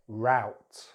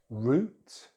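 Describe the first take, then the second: First: It is said with an American accent. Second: It is said with a British accent. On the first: "then American English" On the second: "in British English"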